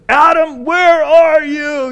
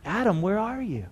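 First: Loud, high shouted challenge; booming, drawn-out police shout; arresting police officer. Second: Soft, sorrowful call; hushed, aching fatherly question; heartbroken father. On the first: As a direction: shout it like a cop hunting a suspect. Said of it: "the cry of an arresting police officer". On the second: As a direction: call quietly for a lost child, heartbroken. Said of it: "the cry of a heartbroken father". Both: Shown as a demonstration.

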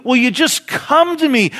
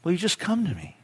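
First: High, loud, impassioned plea; crying plea. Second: Softer, higher, gentle appeal; softened plea. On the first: Jesus calling the unsaved to him, crying out. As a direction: call out urgently, voice raised high. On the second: Jesus making a last appeal, softly pleading. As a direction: drop from the cry into a tender request. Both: Acted. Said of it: "That very cry. He says".

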